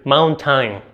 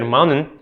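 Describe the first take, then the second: First: "mountain" said as "moun-tain", t sounded; fully pronounced t. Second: "mountain" with the t swallowed, like "moun'n"; native-like American pronunciation. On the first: Teacher shows an acceptable accented take, "mountain" with full t and "tain". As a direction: sound out both syllables of "mountain" as "maun-tain". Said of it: "para el toefl ambos están bien". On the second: Teacher contrasts accents for students, "mountain" said American-style as "moun'n". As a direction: swallow the t and last vowel in "mountain". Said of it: "diferencia clara entre decir mountain y decir".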